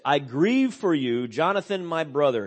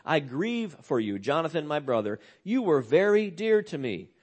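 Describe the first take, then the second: First: Heartfelt lament. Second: Softer, intimate grief for a brother; quiet, personal lament. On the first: Retold or imitated. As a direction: grieve aloud for a dear friend. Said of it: "David says". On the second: Shown as a demonstration. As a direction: say it softly as your own loss. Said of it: "Speaking very personally".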